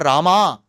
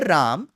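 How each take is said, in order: First: The name ends with a drawn-out final vowel. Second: The name ends without any final vowel. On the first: "neither ... nor Rama" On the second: "The North Indian pronunciation of Ram ... that is also wrong"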